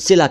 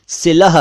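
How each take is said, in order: First: The word ends on a plain open vowel. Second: The word ends with a final h sound. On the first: The speaker calls it wrong. "लेकिन सिला कह देते हैं" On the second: The speaker calls it right. "वैसे उसका सही उच्चारण सिलह है"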